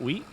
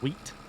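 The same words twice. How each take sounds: First: The final T sound is weak and barely heard. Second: The final T sound is clearly and strongly released. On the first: "Is that how I say it?" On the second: "Emphasis on the T"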